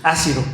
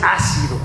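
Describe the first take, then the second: First: "asido" stressed on the SI; stress on the middle syllable. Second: "ácido" stressed on its opening A; stress on the first syllable. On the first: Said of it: "es con S y es sin acento". ("asido" con la fuerza en la i) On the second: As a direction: say "ácido" with the accent on the A. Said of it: "Ácido es con acento en la A". ("ácido" con acento en la primera A) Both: Shown as a demonstration.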